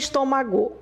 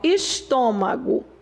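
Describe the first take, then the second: First: The stress falls on a later syllable. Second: The stress is on the third-to-last syllable. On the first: The speaker calls it wrong. "Não é estômago" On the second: The speaker calls it right. "é a antepenúltima"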